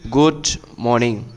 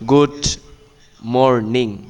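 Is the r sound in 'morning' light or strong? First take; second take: light; strong. First: The r in morning is pronounced lightly. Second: The r in morning is pronounced strongly. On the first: The speaker calls it right. "এখানে আর এর উচ্চারণটা হালকা করে হবে" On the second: The speaker calls it wrong. "আমরা যে বলি সাধারণত গুড মর্নিং এই টাইপের হবে না"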